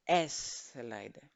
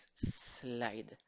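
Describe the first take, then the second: First: "slide" mispronounced with an eh before the s: es-slide; wrong leading E. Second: "slide" starting straight on a long drawn-out s; no leading E. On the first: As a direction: put a Spanish E in front of "slide": ess-lide. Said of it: "Acuérdense que no es slide". ("slide" mal dicho, con e inicial: es-laid) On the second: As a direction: stretch the opening s of "slide", no vowel before it. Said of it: "No, es slide". ("slide" empezando con una s larga, sin e) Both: Shown as a demonstration.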